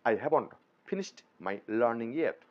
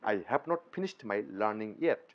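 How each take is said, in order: First: 'Have not' is contracted into one syllable. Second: 'Have not' is said as two full words. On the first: The speaker calls it right. "আমরা বলবো I হ্যাভন্ট" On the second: The speaker calls it wrong. "এভাবে না বলে"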